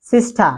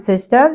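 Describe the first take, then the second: First: 'সিস্টার' as 'sistaa', r dropped; British pronunciation. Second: 'সিস্টার' with final r sounded; American pronunciation. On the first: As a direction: drop the r of 'সিস্টার', falling. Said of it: "British". (British ধাঁচে 'সিস্টার', র ছাড়া) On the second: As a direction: end 'সিস্টার' on r, rising. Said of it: "American সিস্টার". (American ধাঁচে 'সিস্টার', র সহ) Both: Shown as a demonstration.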